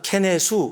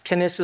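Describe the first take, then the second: First: The name ends in 'su' with a vowel. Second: The name ends in a soft 'th' consonant. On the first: "일본 발음으로는 ... 케네수 이렇게 발음하니까" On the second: "케네스라는 티에이치 발음"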